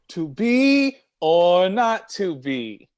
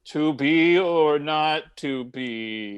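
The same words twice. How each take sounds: First: It is said in a happy tone. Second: It is said in a sad tone.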